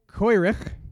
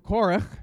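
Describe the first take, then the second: First: The name is said with Ashkenazic Hebrew pronunciation. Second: The name is said with standard Hebrew pronunciation.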